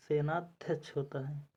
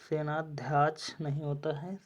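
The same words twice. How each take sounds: First: सेनाध्यक्ष with a short a after dhy; teacher giving the correct सेनाध्यक्ष with short a; correct form. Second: सेनाध्याक्ष with a long aa after dhy; wrong spelling said aloud. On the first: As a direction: say सेनाध्यक्ष crisply with a short a, as the right spelling. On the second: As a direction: stretch the aa in सेनाध्याक्ष as the wrong form. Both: Shown as a demonstration.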